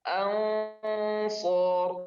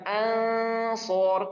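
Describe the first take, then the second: First: The nasal sound is thick and heavy. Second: The nasal sound is thin and light. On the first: The speaker calls it right. "Kalau huruf isti'la dia harus tebal" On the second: The speaker calls it wrong. "Bukan ansor"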